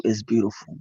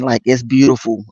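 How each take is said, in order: First: "it's beautiful" said softer, hushed and moved; hushed emphasis. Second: Said in the usual way. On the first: Real, not acted. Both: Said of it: "When I say it's beautiful".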